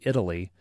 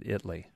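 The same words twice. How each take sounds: First: The word is said with three syllables. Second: The word is said with two syllables. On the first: The usual pronunciation of the country name. "What you might say" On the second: The local pronunciation of the town name. "they pronounce it Italy. / kind of a two syllable pronunciation"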